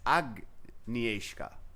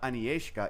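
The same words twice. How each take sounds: First: The G sound is clearly pronounced in the name. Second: The G sound is left out of the name. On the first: The speaker calls it right. "You have to pronounce the G" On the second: The speaker calls it wrong. "It's not"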